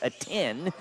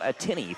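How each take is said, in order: First: The name ends without a final 'ee' sound. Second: The name ends with a final 'ee' sound. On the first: The speaker calls it right. "it's pronounced Atin" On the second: The speaker calls it wrong. "and not Atini"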